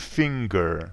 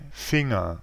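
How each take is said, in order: First: The ng is followed by a separate g. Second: The ng is not followed by a g. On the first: This is the English pronunciation. "En anglais" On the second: This is the German pronunciation. "mais en allemand"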